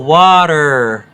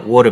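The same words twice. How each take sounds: First: It is said with an American accent. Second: It is said with an Australian accent.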